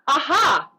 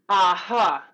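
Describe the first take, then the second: First: The ha bounces freely with excitement. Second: The ha is cut short and closed.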